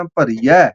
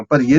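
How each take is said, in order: First: ਭਰੀਏ ending in an open "ai", as bhariyai; ਭਰੀਏ pronounced "bha-ri-yai"; double-lavan ending. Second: ਭਰੀਏ ending in a close "ay", as bhariye; ਭਰੀਏ pronounced "bha-ri-yay"; single-lavan ending. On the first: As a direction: say ਭਰੀਏ with two lavan, open final vowel. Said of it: "ਦੋ ਦਲਾਵਾਂ ਨੇ ਉੱਤੇ". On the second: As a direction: say ਭਰੀਏ with one lavan, close final vowel. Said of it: "ਇੱਕ ਨਹੀਂ ਪੜ੍ਹਨਾ". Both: Shown as a demonstration.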